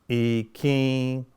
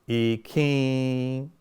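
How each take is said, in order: Both takes have the same delivery.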